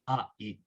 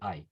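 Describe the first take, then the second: First: The two vowels are said separately, one by one. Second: The two vowels glide together into one sound. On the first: The letters are split so each one is heard clearly. "I intentionally uh, split the letters" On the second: This is how the word is normally said. "it's actually I"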